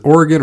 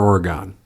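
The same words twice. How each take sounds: First: Oregon ending in a short "gun"; first pronunciation of Oregon. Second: Oregon ending in a full "gone"; second pronunciation of Oregon. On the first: Cohost asks which way to say it, Oregon as OR-uh-gun. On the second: Cohost offers the other way, Oregon as OR-uh-gone. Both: Shown as a demonstration. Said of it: "is it Oregon or Oregon".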